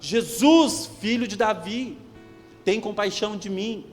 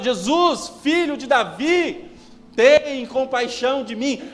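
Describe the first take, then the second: First: It is shouted at a moderate loudness. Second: It is shouted a little louder than before.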